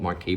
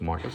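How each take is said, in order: First: The word ends with a 'key' sound. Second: The word ends with a 'cuss' sound. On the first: The speaker calls it wrong. "I call it Marquis" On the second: The speaker calls it right. "but I think it's Marcus actually, the way you pronounce it"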